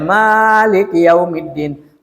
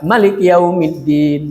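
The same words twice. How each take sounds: First: The first vowel of Malik is long. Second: The first vowel of Malik is short.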